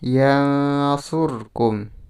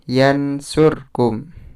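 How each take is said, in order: First: The n is hidden in a nasal hum. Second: The n is pronounced clearly. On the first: The speaker calls it right. "dibaca samar" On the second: The speaker calls it wrong. "bukan yansurkum. Itu salah"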